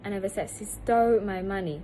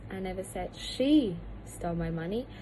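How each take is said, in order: First: The word stole carries the strongest stress. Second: The word she carries the strongest stress. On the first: She may have done something else with the money. "the word stole is the most stressed" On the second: Someone other than her stole the money. "The word she is the most stressed"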